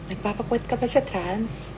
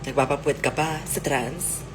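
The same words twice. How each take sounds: First: The question is asked in a flirty tone. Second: The question is asked in a sarcastic tone. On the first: "Lastly is flirty"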